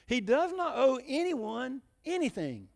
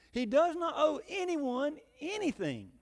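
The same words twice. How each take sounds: First: Slow and weighty, stress on owe; solemn preaching emphasis; emphatic doctrine. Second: Slow, high and weighty, every word leaned on; solemn preaching emphasis; emphatic doctrine. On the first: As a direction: lean hard on owe, falling. Repeats the key line. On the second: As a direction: hammer home that God owes nothing. Preacher stresses key doctrine. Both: Acted.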